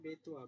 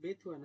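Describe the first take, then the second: First: The middle syllable sounds like 'to'. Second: The middle syllable sounds like 'thu'. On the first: The speaker calls it right. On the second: The speaker calls it wrong. "বিথু বেথুয়া না"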